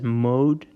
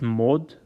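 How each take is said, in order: First: The vowel is a long gliding 'oh' sound. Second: The vowel is a short, pure 'o' sound. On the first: The speaker calls it wrong. "we may be tempted to pronounce it as" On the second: The speaker calls it right. "but it's mod"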